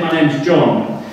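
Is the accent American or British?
British. John is said with a British rounded vowel. Listeners could not understand the name. The speaker calls it wrong. "And Americans would listen to it, is it Joe? John? I don't hear it"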